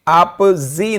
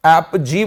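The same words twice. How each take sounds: First: "आप जी" as ap-ZEE, slowly; wrong z sound. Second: "आप जी" as ap-JEE; correct j sound. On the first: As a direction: say "आप जी" with z in the last syllable. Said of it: "तो ये आप जी नहीं". ("आप जी" को ऐप-ज़ी बोलें) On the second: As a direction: say "आप जी" with a j, never z. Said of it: "आप जी बोला जाएगा". ("आप जी" को ऐप-जी बोलें) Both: Shown as a demonstration.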